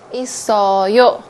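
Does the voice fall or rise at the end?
fall. The pitch falls at the end. It states that the speaker has siblings. "when you answer the question"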